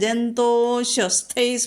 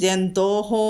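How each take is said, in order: First: The word runs straight into the next word. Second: The word ends in a separate 'ho' sound. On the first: The line is recited in one breath. "ജന്തോഹോ എന്ന് പറയാതെ ജന്തോശ്വസ്ഥൈ സ്മൃത" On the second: The line is broken after this word. "ജന്തോഹോ എന്ന് പറഞ്ഞ് നിർത്താം"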